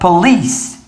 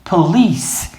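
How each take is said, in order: First: The stress is on the second syllable. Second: The same.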